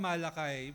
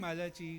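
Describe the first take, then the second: First: The name ends with a 'kai' sound. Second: The name ends with a 'kee' sound. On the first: "ako Malakay" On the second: "Pwedeng Malachi"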